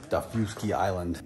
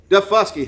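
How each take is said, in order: First: Daufuskie said as TAH-fyoo-skee; mispronounced Daufuskie. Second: Daufuskie said as duh-FUS-kee; correct Daufuskie. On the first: Real, not acted. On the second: Shown as a demonstration. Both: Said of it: "It's pronounced Daufuskie".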